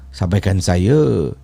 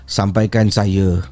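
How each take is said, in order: No difference in how they are said.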